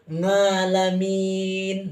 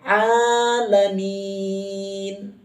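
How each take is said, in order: First: The word begins with an ng sound. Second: The word begins with an ain sound. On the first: The speaker calls it wrong. "pakai nga" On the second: The speaker calls it right. "pakai ain"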